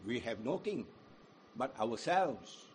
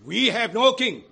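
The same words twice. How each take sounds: First: Hushed self-rule confession; quiet and low. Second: Loud, higher defiant shout of the priests; loud defiant crowd shout; shouted answer. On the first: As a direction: let it sink down quietly. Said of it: "contrasting low take". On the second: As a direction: fling it at Pilate. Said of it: "The chief priests answered". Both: Acted.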